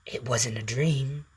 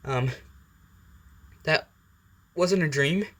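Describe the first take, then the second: First: Slow, drawn-out symbiote statement; Venom. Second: Higher, hesitant question with pauses; falter, then lift into a disbelieving question; Izuku. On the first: Symbiote curls round the waking boy, slow and sure. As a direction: stretch it out as a creeping correction. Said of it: "Venom kinda curls around him and goes". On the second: Boy sits up after falling from bed, hesitant disbelief. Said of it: "As Izuku sits up and goes". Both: Acted.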